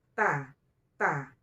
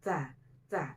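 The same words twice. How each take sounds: First: "ta, ta" with the t pushed hard; rough, hard-struck t in "ta, ta"; pressed, coarse ta. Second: "Ta, ta" with a gentle, airy t; touch the t of "Ta, ta" lightly and let breath out; lightly aspirated t, unpressed, in "Ta, ta"; soft ta. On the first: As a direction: press the t of "ta, ta" too heavily, no airy release. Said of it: "jangan ditekan seperti itu". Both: Shown as a demonstration.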